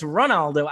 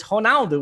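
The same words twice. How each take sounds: First: Ronaldo with an English R, rah-NAL-doh; English pronunciation. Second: Ronaldo with the R said like an H, honaldu; Portuguese pronunciation. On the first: Broadcaster showing how he says the name in English, rah-NAL-doh. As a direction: say Ronaldo the anglicised way. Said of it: "When I'm speaking English". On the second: Broadcaster showing how he says the name in Portuguese, honaldu. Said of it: "when I'm speaking Portuguese". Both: Shown as a demonstration.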